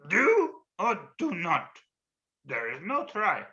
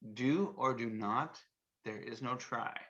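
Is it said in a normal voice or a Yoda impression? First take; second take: Yoda impression; normal voice. First: It is said in a Yoda impression. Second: It is said in his normal voice.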